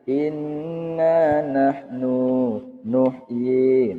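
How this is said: The short words are broken up by pauses. The speaker calls it wrong. "jangan sampai terjadi jeda. Misalnya begini"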